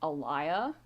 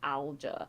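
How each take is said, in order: First: The name is said with three syllables. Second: The name is said with two syllables. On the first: This is how Mediterranean people would say it. The speaker calls it wrong. "But I was pronouncing it Alaya, which would probably be how the Mediterraneans would pronounce it" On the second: This follows the spelling of the name. The speaker calls it right. "Like how her name is spelled, it would be pronounced Alja"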